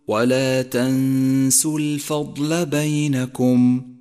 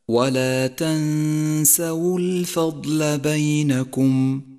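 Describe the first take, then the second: First: The s lacks the a-vowel before the w. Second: The s carries an a-vowel before the w. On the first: The speaker calls it wrong. "ومن الخطأ أن تقول" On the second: The speaker calls it right. "فالسين مفتوحة والواو مضمومة فتلفظ هكذا"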